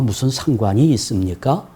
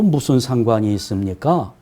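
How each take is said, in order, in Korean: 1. 동의하고 받아들이는 수사적 질문으로 말합니다. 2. 거부하고 반박하는 수사적 질문으로 말합니다. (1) "상관이 있다는 말이지요" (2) "상관없다는 말이에요"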